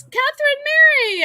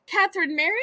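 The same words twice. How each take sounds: First: Delighted surprise, calling a name; surprised greeting. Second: Said in the usual way. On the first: Real, not acted. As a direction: call her name, thrilled to see her. Surprised to see viewer.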